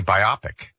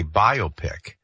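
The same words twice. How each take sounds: First: "biopic" said "bye-OP-ik"; common American pronunciation. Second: "biopic" said "BYE-oh-pick"; compound-word pronunciation. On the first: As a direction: stress the middle of "biopic", short "op". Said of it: "most Americans actually say biopic". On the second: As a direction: slowly say "biopic" as bio plus pic. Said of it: "makes the most sense to say". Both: Shown as a demonstration.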